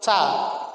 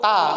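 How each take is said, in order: First: The consonant is released with an audible hiss. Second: The consonant is released without any hiss. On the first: The speaker calls it right. "Contohnya huruf ca" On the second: The speaker calls it wrong. "Ta itu tidak ada desisannya"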